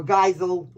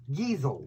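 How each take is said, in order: First: "Geisel" as GUY-zel, German ei like eye; "Geisel" with eye sound, GUY-zel. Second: "Geisel" as GEE-zel, long ee, soft z; "Geisel" rhymes with easel, GEE-zel. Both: Shown as a demonstration. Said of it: "depending on how you say it".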